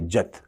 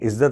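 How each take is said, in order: First: It is said in a UP regional accent. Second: It is said in a standard Hindi accent. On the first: "बिल्कुल UP वाले भाव में आ जाते हैं" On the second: "इज्जत नहीं"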